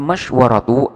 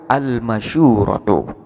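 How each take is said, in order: First: The sh has no vowel, followed by 'wa'. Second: The sh takes an 'u' vowel, with no 'wa'. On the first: "bisukuni syini ialah dengan sukunnya shin mash wa fathil wawi dan fathahnya waw" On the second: "bi dhammi syini atau dengan dhammahnya shin wa sukunil wawi"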